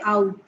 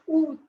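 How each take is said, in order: First: It sounds like the English word 'out'. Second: It does not sound like English 'out'. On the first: The speaker calls it wrong. "Don't say out" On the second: The speaker calls it right. "It's août"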